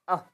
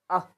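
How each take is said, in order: Both takes have the same delivery.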